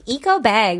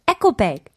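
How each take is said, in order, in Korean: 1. 첫 부분은 'ee-ko'처럼 들려요. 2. 첫 부분은 'echo'처럼 들려요. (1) "because we say in English" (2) "But here, it's eco"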